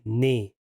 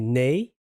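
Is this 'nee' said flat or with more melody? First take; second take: flat; melodic. First: The word is said flat, with little melody. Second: The word is said with more melody. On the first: This is how it sounds in Afrikaans. "we say nee, more flat" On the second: This is how it sounds in Dutch. "in Dutch, they say nee"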